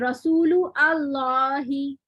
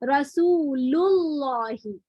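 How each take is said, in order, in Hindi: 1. दोनों शब्द अलग-अलग बोले जाते हैं, अलिफ़ बोला जाता है। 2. दोनों शब्द जुड़े हुए बोले जाते हैं, अलिफ़ चुप रहता है। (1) "आप ऐसे नहीं पढ़ते इसको अलग अलग" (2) "बल्कि आप क्या पढ़ते हैं इसको"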